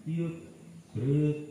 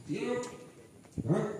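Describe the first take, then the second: First: "Siap" clipped, "gerak" pushed out louder; mock the unwanted new style of "Siap, gerak"; wrong drill intonation. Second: High, rising drill call of siap, gerak; "Siap" and "gerak" barked short with a rising tune; drill command. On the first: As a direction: imitate a cadet's bad "Siap, gerak" call. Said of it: "itu ada di sini". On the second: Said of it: "gitu-gitu aja ya". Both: Shown as a demonstration.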